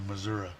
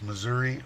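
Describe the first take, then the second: First: The word ends with an uh sound. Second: The word ends with an ee sound. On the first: "type an A" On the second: "type an E"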